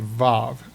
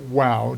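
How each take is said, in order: First: The word begins with a V sound. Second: The word begins with a W sound. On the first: This is the modern Hebrew pronunciation. "in modern day Israel and elsewhere with the Hebrew, we say vav" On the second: This is the biblical scholars' pronunciation. "They pronounce it wow, W A W"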